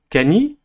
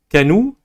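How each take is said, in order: First: The n is followed by an i vowel. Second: The n is followed by an u vowel. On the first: "ni Kani" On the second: "ce n'est ni Kanou"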